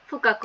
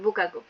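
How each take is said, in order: First: The word starts with an f sound. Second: The word starts with a b sound. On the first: The word stands alone. "যদি আলাদা ভাবে হচ্ছে বলা হয়" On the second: The word is joined to a preceding word. "একসাথে হয়ে গেছে চুই বুকাকু"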